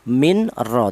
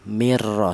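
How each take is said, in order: First: The n is pronounced clearly before the r. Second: The n merges fully into the following r. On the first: The speaker calls it wrong. "idhar itu jelas tidak boleh seperti min ra" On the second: The speaker calls it right. "nun mati tadi dileburkan ke huruf ra ini ya, mirra seperti itu"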